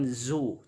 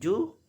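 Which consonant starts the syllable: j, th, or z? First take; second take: z; j. First: The syllable starts with a z sound. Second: The syllable starts with a j sound. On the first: "bukan zu" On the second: "bukan ju"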